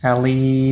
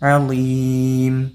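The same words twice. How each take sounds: First: The final sound is made without closing the lips. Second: The final m is made with closed lips. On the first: The speaker calls it wrong. "അലീം എന്നറിയരുത്" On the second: The speaker calls it right. "ചുണ്ട് പൂട്ടിയാലാണ് മീം കിട്ടുള്ളൂ"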